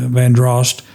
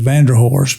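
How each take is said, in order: First: The name is said with two syllables. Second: The name is said with three syllables. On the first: This is the proper way to say it. The speaker calls it right. "correct correct pronunciation is" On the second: This is how some locals say it. The speaker calls it wrong. "some pronounce locally in Charleston as"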